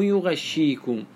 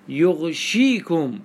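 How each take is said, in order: First: يغشيكم said yu-ghash-shee-kum; doubled shin. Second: يغشيكم drawn out slowly as yugh-shee-kum; unvowelled ghayn. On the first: Teacher correcting to the usual reading, يغشيكم as yughashshikum. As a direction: put an 'a' after gh and double the sh in يغشيكم. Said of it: "بتشديد الشين". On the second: Teacher showing the Medina reading, يغشيكم as yughshikum. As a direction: close the first syllable of يغشيكم on gh, single sh. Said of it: "بضم الياء وسكون الغين". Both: Shown as a demonstration.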